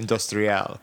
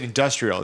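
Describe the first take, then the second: First: The word is said with a French pronunciation. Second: The word is said with an English pronunciation. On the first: The speaker calls it right. "more of a French pronunciation of industrial" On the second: The speaker calls it wrong. "you said industrial"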